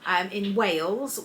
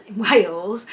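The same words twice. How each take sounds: First: Put-on slow, lilting Welsh accent on Wales with a rise. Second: Said in the usual way. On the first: Naming the kids' activity centre, a slow Welsh accent. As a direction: say in Wales like a Welsh local, rising. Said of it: "I said that in a Welsh accent". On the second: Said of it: "I don't know why I said that in a Welsh accent".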